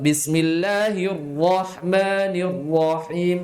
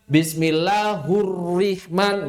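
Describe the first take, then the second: First: "Bismillahirrahmanirrahim" with correct "hi" and thick R. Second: "Bismillahurrahman" with "hu" and "rih" for the right vowels; wrong vowels. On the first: Teacher corrects the misreading, measured thick-R recitation. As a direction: chant "Bismillahirrahmanirrahim", heavy R in "rahman" and "rahim". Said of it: "tebal roknya". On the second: Teacher shows an error he didn't make, wrong vowels in "Bismillahurrahman". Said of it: "Tidak ada kesalahan harokat". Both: Shown as a demonstration.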